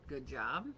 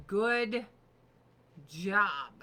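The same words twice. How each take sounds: First: Said in the usual way. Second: Loud mock good job. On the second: Mocking herself, loud sarcastic good job.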